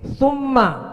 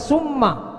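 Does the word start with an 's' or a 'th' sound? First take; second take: th; s. First: The word begins with a lisped th sound. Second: The word begins with a hissing s sound. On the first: The speaker calls it right. "Baca ta-nya seperti sin" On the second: The speaker calls it wrong. "seperti sin"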